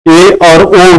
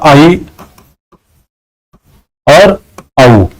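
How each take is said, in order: First: The vowels are said as simple e and o. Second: The vowels are said as diphthongs ai and au. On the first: This is how the vowels are said today. "आज की date में इसको क्या उच्चारित करते हो" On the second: This is how the vowels were said in Vedic Sanskrit. "वैदिक संस्कृत में इसका उच्चारण किया जाता था"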